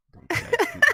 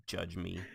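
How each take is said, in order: First: High, loud mock plea. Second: Said in the usual way. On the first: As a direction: squeal it like an outraged plea.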